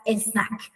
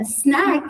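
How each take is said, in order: First: "a snack" with an e vowel before the s; Persian-style loanword pronunciation. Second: Said in the usual way. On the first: Shown as a demonstration. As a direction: say "a snack" as one word, e-snack. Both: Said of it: "we would pronounce it as".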